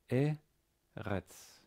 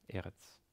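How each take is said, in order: First: "Eretz" split slowly into E, then retz; sounded out. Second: Said in the usual way. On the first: Shown as a demonstration. Teacher spelling out a Hebrew word, syllable by syllable.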